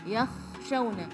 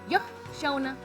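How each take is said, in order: First: The kh sound is held long. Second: The kh sound is cut short. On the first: The speaker calls it right. "rakhawah itu dia panjang ... harus lebih dilenturkan lagi ... seperti itu ya" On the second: The speaker calls it wrong. "Jangan yakhshawna ... durasinya sudah berpindah dan itu salah"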